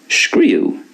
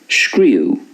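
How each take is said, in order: No difference in how they are said.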